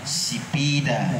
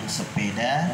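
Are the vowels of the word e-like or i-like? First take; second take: i-like; e-like. First: The word is said with i-like vowels. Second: The word is said with e-like vowels.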